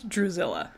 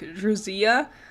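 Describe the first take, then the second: First: The double L sounds like an L. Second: The double L sounds like a Y. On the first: The speaker calls it right. "but I believe it's Drusilla" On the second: The speaker calls it wrong. "I always want to make it a Y noise, like Drusilla, like a, how you would do with Spanish"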